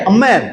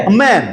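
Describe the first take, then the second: The two takes are said the same way.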